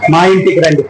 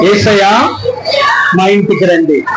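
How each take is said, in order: First: Said in the usual way. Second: A raised, pleading invitation; calling out in prayer. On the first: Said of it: "అడుగుదాం ఒకసారి మనం". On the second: Shown as a demonstration. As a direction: cry out, pleading for Jesus to come home. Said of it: "అడగండి ఒకసారి".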